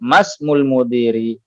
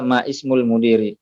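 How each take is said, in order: First: Ma runs straight into smul without a break. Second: A glottal stop separates ma and ismul. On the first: The speaker calls it right. "akan tetapi masmul mudiri" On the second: The speaker calls it wrong. "Jangan dibaca ma ismul mudiri"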